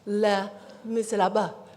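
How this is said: It is said with a French accent.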